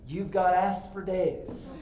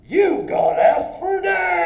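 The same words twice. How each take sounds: First: It is said in his normal voice. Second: It is said in a put-on funny voice.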